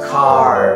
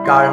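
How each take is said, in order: First: The first consonant has a strong puff of air. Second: The first consonant has no puff of air. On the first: The speaker calls it right. "কি বলবো কার" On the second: The speaker calls it wrong. "কার না বলে"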